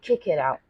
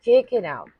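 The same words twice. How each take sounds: First: Said in the usual way. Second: Louder, higher push; forceful. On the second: Shown as a demonstration. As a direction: urge them on with force. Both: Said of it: "Be a bit forceful here".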